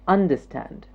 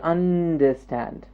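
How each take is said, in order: First: The word is said at a normal pace. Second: The word is stretched out and exaggerated. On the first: The speaker calls it right. "say the word out naturally" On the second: The speaker calls it wrong. "Don't stretch or exaggerate it"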